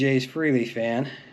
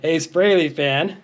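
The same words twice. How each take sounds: First: The first syllable sounds like 'free'. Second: The first syllable sounds like 'fray'. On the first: The speaker calls it wrong. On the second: The speaker calls it right.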